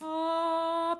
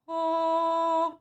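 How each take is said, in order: First: The vowel sounds flat, with a lowered soft palate. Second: The vowel sounds round, with a lifted soft palate. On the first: "that's a more flat, uh, soft palate" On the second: "it's a very round, lifted back palate"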